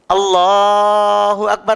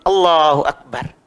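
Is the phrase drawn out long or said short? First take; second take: drawn out; short. First: The phrase is stretched out long. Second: The phrase is said short and quickly. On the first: It lasts through the whole movement. "takbirnya panjang" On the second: It is said during the movement without stretching. "Tidak harus dipanjangkan"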